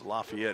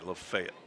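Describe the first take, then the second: First: It is said with the local Indiana pronunciation. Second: It is said with the Tennessee pronunciation. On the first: "It's Lafayette here" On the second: "That's how they pronounce the exact same word or name down in Tennessee"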